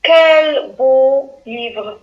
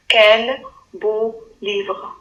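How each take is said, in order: First: "Quel beau livre" slow, louder, admiring; slow, drawn-out admiration; admiring exclamation. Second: Calm slow repeat; slow plain read. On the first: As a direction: marvel at the book. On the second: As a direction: read it slowly for dictation. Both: Shown as a demonstration. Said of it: "Phrase numéro trois".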